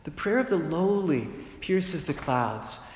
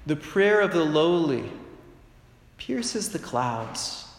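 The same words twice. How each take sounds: First: Slow restatement, weight on of; repeated for emphasis. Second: Slow solemn scripture reading. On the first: Preacher repeating the verse to the congregation, slow and deliberate. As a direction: say the verse once more so it sinks in. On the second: Preacher reading Sirach to the congregation, slow and solemn. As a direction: quote it like holy writ, letting each word land. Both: Shown as a demonstration. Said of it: "as it said in the book of Sirach".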